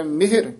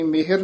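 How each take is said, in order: First: ਮਿਹਰ with a short first vowel, mihr. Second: ਮਿਹਰ with an open long e, mehar; wrong vowel in ਮਿਹਰ. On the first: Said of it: "ਸਿਹਾਰੀ ਲੱਗੀ ਹੋਈ ਹੈ". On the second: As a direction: say ਮਿਹਰ as two syllables, me-har. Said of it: "ਨਹੀਂ ਕਹਿਣਾ". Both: Shown as a demonstration.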